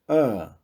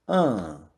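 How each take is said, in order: First: The vowel is said closed, further back. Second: The vowel is said through the nose. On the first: "modificam para o som fechado" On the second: "Agora os sons nasais"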